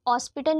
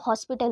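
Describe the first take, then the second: First: The word starts without an h sound. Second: The word starts with an h sound. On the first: The speaker calls it wrong. "वो हॉस्पिटल नहीं होता" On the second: The speaker calls it right. "वहाँ पे हा पढ़ते हैं"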